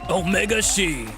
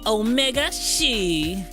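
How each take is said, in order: First: It is said in a low, masculine voice. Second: It is said in a normal voice.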